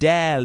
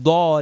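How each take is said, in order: First: The vowel is said with spread, smiling lips. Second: The vowel is said with rounded, kissing lips. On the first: The speaker calls it right. "like you're smiling" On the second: The speaker calls it wrong. "not dod, as if you're about to kiss"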